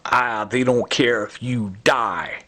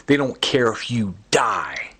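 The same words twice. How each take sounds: First: Slow, voiced put-on voice for "they don't care if you die"; imitating Joe Cantwell. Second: Breathy unvoiced whisper of the threat; whispered quote. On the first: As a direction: drag it out slowly in a lightly voiced sneer. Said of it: "just like this, uh, Joe Cantwell". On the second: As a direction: hiss it out under your breath like a secret. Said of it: "you hear him saying".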